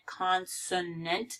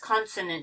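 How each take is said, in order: First: Every syllable is exaggerated and carefully articulated. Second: The word is said in a relaxed, everyday way. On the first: "I'm over pronouncing it" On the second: "but it's consonant"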